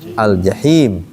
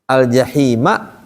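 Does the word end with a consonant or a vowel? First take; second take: consonant; vowel. First: The word ends on the bare consonant 'm'. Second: The word ends with a short 'a' vowel. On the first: The reader stops at this word. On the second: The reading continues without a stop.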